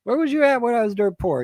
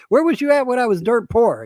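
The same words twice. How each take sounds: First: Higher, louder accusing repeat; mock indignant again. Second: Louder, higher accusing retort; mock indignant. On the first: Man repeating his rebuke to relatives, higher and louder. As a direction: hammer the accusation home. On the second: Man rebuffing gold-digging relatives, higher and louder. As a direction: throw it back at the fake relatives. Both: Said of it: "it's like".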